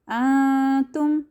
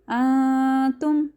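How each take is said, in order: Both takes have the same delivery.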